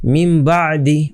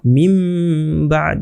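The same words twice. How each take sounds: First: মিম বাদি drawn out, ending on a short i; continuing form. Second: মিম held in a long hum, বাদ ending on d; stopping form. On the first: Teacher reads it unstopped, মিম বাদি slow with final i. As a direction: read on without stopping, final i voiced in বাদি. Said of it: "এখানে যদি থামতে হতো". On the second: Teacher shows the pause form, মিম hummed then বাদ stopped. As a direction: stop dead on the d of বাদ, no final vowel. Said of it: "যদি থামতে হতো". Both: Shown as a demonstration.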